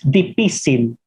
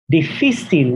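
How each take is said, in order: First: It has a Filipino P for F. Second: It has a Spanish F sound.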